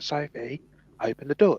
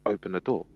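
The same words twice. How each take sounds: First: High, loud frantic shout; going skits. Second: Said in the usual way. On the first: Retold or imitated. Girl shouting at her sister through the door, high and frantic. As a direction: yell it through the locked door, panicking. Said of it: "going skits".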